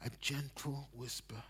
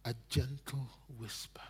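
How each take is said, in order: First: Soft repeat. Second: Gentle whisper. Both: Shown as a demonstration.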